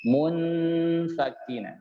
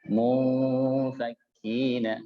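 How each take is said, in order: First: "munfakina" sung high and slow, the n hidden in a hum; correct ikhfa. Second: A flatter "munfakina" set against the sung one; contrasting take. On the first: Teacher contrasts the correct, hummed "munfakina". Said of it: "Jadi beda kalau saya baca". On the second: Teacher gives the second, contrasting "munfakina" to compare. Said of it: "Itu beda dengan munfakina". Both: Shown as a demonstration.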